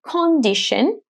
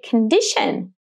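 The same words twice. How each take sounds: First: The first O is a full, clear O. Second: The first O is reduced to a weak vowel. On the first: The speaker calls it wrong. "You guys don't say condition" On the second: The speaker calls it right. "you say condition. If you pay attention, you actually reduce the first O"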